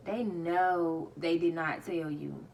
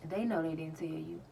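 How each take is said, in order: First: Slow, with DID NOT spelled out in full; slow, punched "know" and "did not"; emphatic repeat. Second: Said in the usual way. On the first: Real, not acted. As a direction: stretch "know" loud, then land hard on "did not".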